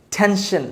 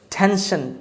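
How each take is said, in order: Both takes have the same delivery.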